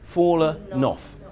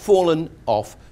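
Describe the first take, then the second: First: The two words are joined smoothly together. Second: The two words are separated by a break. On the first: The speaker calls it right. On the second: The speaker calls it wrong.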